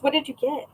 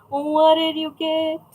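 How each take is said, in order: First: Said in the usual way. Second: Slow, higher, playful chant; drawn-out question. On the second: Pretend. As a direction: stretch each word out on a raised pitch. Playfully repeats question to viewer.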